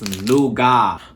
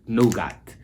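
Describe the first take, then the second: First: The final T sound is silent. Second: The final T sound is pronounced. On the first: This is how it is said in South Africa and the UK. "So the T is silent" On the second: This is how some Americans say it. "they said nougat, like nougat"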